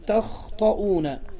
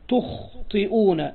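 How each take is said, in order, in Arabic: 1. الحركة الأولى هي صوت 'a' مفتوح. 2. الحركة الأولى هي صوت 'u' مدوّر. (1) "بفتح التاء والطاء على انه من خطئ" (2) "ويجوز فيه ضم التاء تخطئون على انه من اخطأ"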